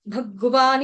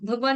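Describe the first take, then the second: First: Said with a full vowel after 'g'. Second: Said quickly with the 'g' clipped. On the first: The speaker calls it right. "ग पूरा है, भगवान ही बोलेंगे" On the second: The speaker calls it wrong. "नहीं बोलना, फटाफट से नहीं बोलना ... ग आपका हलंत हो जाएगा"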